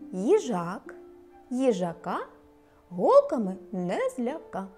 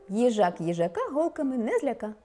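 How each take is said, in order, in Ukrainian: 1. Речення вимовляється повільно. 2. Речення вимовляється швидше. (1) "Спочатку повільно" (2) "А тепер швидше"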